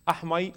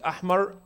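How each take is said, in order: First: The r sound is replaced by a y. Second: The r sound is weak and half broken. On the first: "His ra is ya" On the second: "The ra is not. It's half um, uh, broken"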